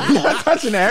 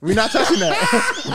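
First: Laughing through the words. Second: Laughing. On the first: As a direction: giggle while refusing. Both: Real, not acted. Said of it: "repeating refusal, laughing".

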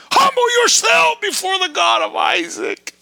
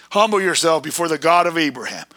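First: Fiery sermon shout; preaching shout. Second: Said in the usual way. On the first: Real, not acted. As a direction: proclaim it at full force. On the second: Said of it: "repeated, second shouted".

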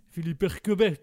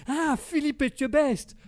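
First: "Eckebert" said with a hard k and a final t, as if it were the real name; confidently garbles the name into "Eckebert"; mangled chef's name. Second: "Etchebest" with a clear tch and a final st, much higher and louder, slowed down; a surprised realisation, spelling out "Etchebest"; correct chef's name. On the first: Guest naming the TV chef, botching it into "Eckebert". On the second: Interviewer finally catching on and correcting the guest, pitched high with surprise. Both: Acted.

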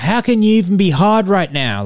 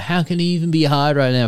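First: High, louder heckle from the crowd; mock heckling yell. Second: Lighter retold heckle. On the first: Girl heckles performer from the crowd, mock yell. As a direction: call it out like a rowdy heckler. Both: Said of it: "yelling out".

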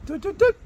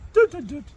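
First: High sung doo doo doo; imitated dishwasher beep. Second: High sung doo doo doo, falling; imitated dishwasher beep. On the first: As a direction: chirp it high like a dishwasher jingle. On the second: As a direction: sing the dishwasher switching off. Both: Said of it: "it goes".

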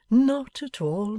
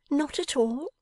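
First: Slow, higher, soothing denial; Pa gently reassuring his girl; fond father, calm. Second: Put-on much higher, rising questioning girl's voice; surprised Bella. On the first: Acted. Pa answers Bella. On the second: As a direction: Bella echoes his words in disbelief.

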